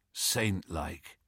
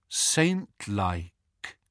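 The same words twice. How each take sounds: First: Low, soft murmur; weak murmur. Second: "Saint-like" drawn out more firmly; deliberate repeat. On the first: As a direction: murmur it like someone just stirring. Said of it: "he murmured". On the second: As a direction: repeat "Saint-like" slowly and clearly. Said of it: "repeated George". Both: A narrator's reading.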